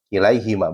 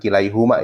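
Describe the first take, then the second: First: The vowel after the h is i. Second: The vowel after the h is u. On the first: The speaker calls it right. "huruf H-nya dikasroh" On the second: The speaker calls it wrong. "bukan kilaihuma ya"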